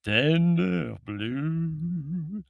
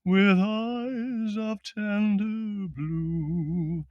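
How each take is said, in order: First: Put-on high, very slow sung echo with a Middle European accent; sung, lecherous Middle European intoning. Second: Slow, high, unaccompanied crooning; British baritone singing. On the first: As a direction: leer through the sung words in a thick accent. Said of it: "intoned the Middle European accent, giving a lechery". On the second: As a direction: sing it grandly, stretching each word. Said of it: "said the baritone". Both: A narrator's reading.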